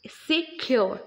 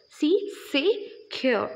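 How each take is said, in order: First: Said in the usual way. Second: "See, secure" said slowly, splitting se and cure; syllables split. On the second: Shown as a demonstration. Teacher to class, showing two syllables, slowly split word. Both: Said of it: "but making two sound".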